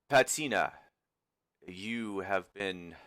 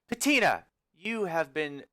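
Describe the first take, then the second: First: It is said without the character's put-on voice. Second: It is said in the character's put-on voice. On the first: The speaker calls it wrong. "Sorry, let me do the right voice" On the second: The speaker calls it right. "let me do the right voice"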